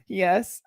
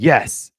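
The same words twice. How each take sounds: First: It is said weakly, without energy. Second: It is said loudly, like a yell.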